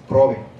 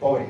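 First: The r sound comes right after the p. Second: The r sound comes right after the b. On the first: This is the Ladino form. The speaker calls it right. "es probe" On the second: This is the standard Spanish form. The speaker calls it wrong. "No es pobre"

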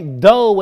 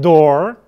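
First: The final R sound is dropped. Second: The final R sound is clearly pronounced. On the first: "I didn't say dough" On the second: "I said door"

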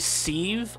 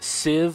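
First: The vowel is a long ee sound. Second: The vowel is a short i sound. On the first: "say sieve like Steve" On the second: "I say sieve like Shiv"

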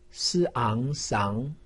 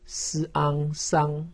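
First: The pitch rises from mid to high. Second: The pitch stays high and level. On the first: "二声" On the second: "一声"

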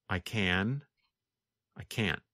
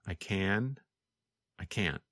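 The two takes are said the same way.

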